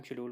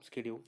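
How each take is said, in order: First: शेड्यूल with a sh sound, British style; old pronunciation. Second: शेड्यूल said as "skedule", hard sk at the start; शेड्यूल with a sk sound, American style; new pronunciation. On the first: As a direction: say शेड्यूल the old way, "shed-yool". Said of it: "पहले हम शेड्यूल बोलते थे". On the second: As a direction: say शेड्यूल the current way, "sked-yool". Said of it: "अब हम शेड्यूल". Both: Shown as a demonstration.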